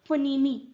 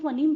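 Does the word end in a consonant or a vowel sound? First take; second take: vowel; consonant. First: The word ends with an added ee vowel. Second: The word ends on the m sound. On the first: The speaker calls it wrong. "हमने नहीं बोला इसको फनीमी" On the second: The speaker calls it right. "हम इसको फनीम बोलते हैं, last का ई तो हमने बोला ही नहीं"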